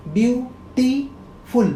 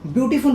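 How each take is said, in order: First: ब्यूटीफुल broken into three slow beats, ब्यू, टी, फुल; teacher counting the three syllables of ब्यूटीफुल. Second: Said in the usual way. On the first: Shown as a demonstration. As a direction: sound out ब्यूटीफुल slowly with a pause after each syllable. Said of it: "तीन हो गया". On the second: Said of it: "pronunciation करूँगा ना".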